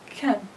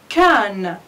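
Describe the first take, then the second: First: The vowel is reduced and weak. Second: The vowel is full and strong. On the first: "the weak form" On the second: "it's the strong form"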